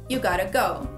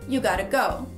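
No difference in how they are said.

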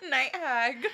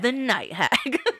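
First: It is said plainly, without much feeling. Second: It is said with more dramatic feeling.

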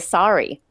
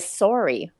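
First: The o vowel sounds somewhat like an a. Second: The o vowel sounds like a rounded o. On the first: "they say sorry" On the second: "whereas we say sorry"

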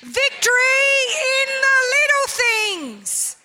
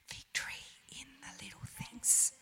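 First: It is said very loudly. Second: It is said very quietly.

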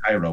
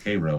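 First: It sounds like the Egyptian city's name. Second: It sounds different from the Egyptian city's name. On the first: This is the familiar city name. "It's spelled the same with Cairo" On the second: This is the local town's name. "but it's Cairo"

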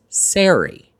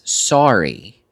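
First: The name sounds different from the word sorry. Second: The name sounds just like the word sorry. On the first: This is how broadcast announcers say it. "every British announcer, every last one of them, is saying it as Sari" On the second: This is how one colleague has been saying it. "I started saying sorry as well"

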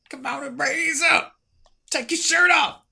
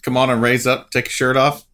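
First: It is said in a put-on performer voice. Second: It is said in his plain voice.

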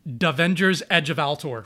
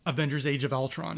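First: It starts with a D sound, with altered vowels. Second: It starts with a vowel, with standard vowels. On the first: The speaker calls it wrong. "The way he said this movie was Davengers Edge of Altor" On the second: The speaker calls it right. "I actually have to think in order to actually say Avengers Age of Ultron"

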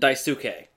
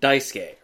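First: The u in the middle is clearly pronounced. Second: The u in the middle is nearly silent.

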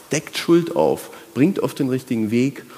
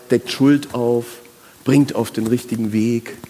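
The two takes are said the same way.

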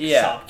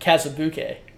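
First: The name is said as Kasabki. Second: The name is said as Kazabuke. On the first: The speaker calls it right. "Is the correct pronunciation" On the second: The speaker calls it wrong. "I had been pronouncing it Kazabuke. But that's not right"

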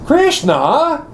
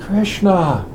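First: The name is called out in an indignant tone. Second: The name is called out in a longing tone. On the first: The caller is outraged at being tricked. "what did the gopis say when they were going to get out of the water and they saw that Krishna had stolen their saris?" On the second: The caller misses someone and is searching. "How does Radharani call Krishna when she can't find him?"

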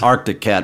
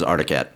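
First: The k sound in the first word is pronounced. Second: The k sound in the first word is dropped. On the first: This is the brand's actual name. "It is Arctic Cat" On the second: This is how people commonly say it. "everybody says Articat"

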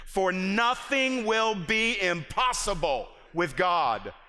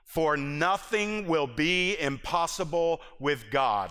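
First: It is read forcefully, with strong conviction. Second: It is read plainly, without special force.

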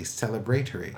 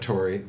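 First: It is said with a British pronunciation. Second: It is said with an American pronunciation.

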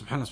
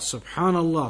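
First: The word is said fast and slurred. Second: The word is said slowly and carefully. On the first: The speaker does not know what they are saying. The speaker calls it wrong. "Not subhanallah, ... blah, blah. That's wrong" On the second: The speaker means what they are saying. The speaker calls it right. "subhanallah, properly"

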